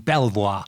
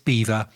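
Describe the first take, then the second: First: It is said the way it is spelled. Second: It sounds like the word 'beaver'. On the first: The speaker calls it wrong. "which you might think would be Belvoir" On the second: The speaker calls it right. "so it's Belvoir, as in the little furry creatures that build dams"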